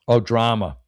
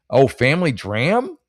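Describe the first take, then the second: First: Said in the usual way. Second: "dram" said like a dram of whiskey, no final vowel; slow, puzzled "family dram?" ending in "dram" with a rise; misread as dram. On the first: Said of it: "short for drama". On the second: Shown as a demonstration. Comic misreading a topic card as whiskey, "dram" said short. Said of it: "I read it as dram".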